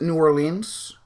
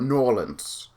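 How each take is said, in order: First: It uses a non-local pronunciation of the name. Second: It uses the local pronunciation of the name. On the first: This is how outsiders say it. The speaker calls it wrong. "I used to pronounce it New Orleans" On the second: This is how people from there say it. The speaker calls it right. "I've heard more people pronounce from there call it New Orleans"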